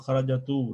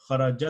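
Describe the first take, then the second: First: The word ends with an added u vowel. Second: The word ends on a stopped t sound. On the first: The letter is given a vowel instead of a stop. The speaker calls it wrong. "Because you're not saying" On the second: The letter has no vowel because you stop on it. The speaker calls it right. "Sakun means you come to a stop"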